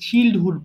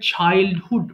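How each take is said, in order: First: The first vowel is short, like 'chill'. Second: The first vowel is long, like 'child'. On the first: The speaker calls it wrong. "এটা অনেকে ভুল করে চিল্ডহুড বলে ফেলে" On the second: The speaker calls it right. "উচ্চারণটা হবে চাইল্ডহুড"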